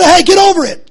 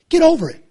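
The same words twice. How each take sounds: First: "Hey, get over it" thrown out higher and louder; mock loud brush-off. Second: Quoted "Get over it" tossed off a bit higher; mock dismissive quote. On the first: Preacher mimicking a callous critic, loud mocking brush-off. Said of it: "You say". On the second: Preacher mimicking people who dismiss him, light mock brush-off. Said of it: "people to say".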